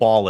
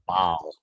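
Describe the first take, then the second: First: The word is said plainly, without a drawl. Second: The word is drawn out in a Southern drawl. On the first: The speaker calls it wrong. "It's not ball" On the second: The speaker calls it right. "you got to put that southern drawl in your voice"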